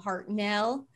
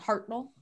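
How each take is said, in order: First: The stress falls where Americans put it. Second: The stress falls where British speakers put it. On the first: "as an American, we want to put the emphasis on um" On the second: "like British people, they would put it on"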